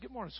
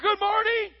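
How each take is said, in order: First: It is said softly and warmly. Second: It is yelled loudly and forcefully. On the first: The speaker shares a close, caring relationship. The speaker calls it right. "I can just talk to her" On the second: The speaker is trying to dominate or intimidate. The speaker calls it wrong. "I don't go yelling at her"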